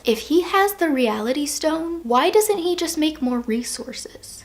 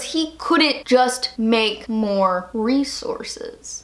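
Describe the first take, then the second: First: Slow, hushed puzzled question; puzzled challenge. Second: Very slow, spaced-out "make more resources"; word-by-word emphasis. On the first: Fan riddling out Thanos's plan, hushed challenge. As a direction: pose it slowly, almost under the breath. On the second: Fan stuck on Thanos's logic, "make more resources" slow and spaced. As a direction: land "make", "more" and "resources" one by one, slowly. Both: Real, not acted.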